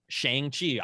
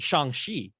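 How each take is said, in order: First: The name is said the American way. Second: The name is said in Mandarin style.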